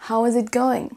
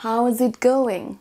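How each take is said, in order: First: Said in the usual way. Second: How is it going? spelled out slowly; slow model phrase. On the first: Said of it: "qu'on entend très très souvent". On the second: Shown as a demonstration. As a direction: say it slowly for learners. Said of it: "alternative-là qu'on entend très très souvent".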